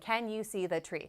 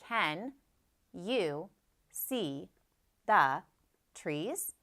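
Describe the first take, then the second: First: It is read fast, words run together. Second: It is read slowly, each word separate.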